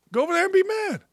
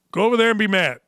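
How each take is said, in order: First: Mock high-pitched voice, much higher; taunting Go over there and be mad in a mock high voice. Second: Said in the usual way. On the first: Shown as a demonstration. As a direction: mimic a whiny taunt up high.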